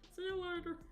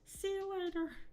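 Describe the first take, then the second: First: It is said in a Kermit the Frog voice. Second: It is said in the speaker's normal voice.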